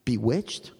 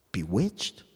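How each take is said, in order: First: Said in the usual way. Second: Bewitched? dropped much lower and hushed; low, dark echo. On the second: Shown as a demonstration. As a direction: repeat Bewitched? in a low, hollow voice. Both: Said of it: "strong language".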